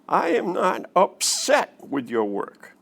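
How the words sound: The word upset carries the stress. The speaker feels something other than upset about the work. "When you emphasize the word upset"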